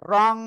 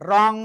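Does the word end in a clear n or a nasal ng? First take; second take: nasal ng; nasal ng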